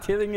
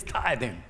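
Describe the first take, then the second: First: "tithing" with a short i, like "tith-ing"; preacher quoting the wrong "tithing" with a short i sound; wrong pronunciation. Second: "tithing" with a long i, as "tie-thing"; preacher correcting Terry by saying "tithing" as "tie-thing"; correct pronunciation. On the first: Preacher mimicking the mistake, saying "tithing" as "tith-ing". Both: Retold or imitated. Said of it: "It's not tithing, it's tithing".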